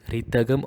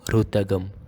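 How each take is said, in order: First: A full clear I vowel follows the R. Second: A full clear U vowel follows the R. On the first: "not a blatant re" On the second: "or ru"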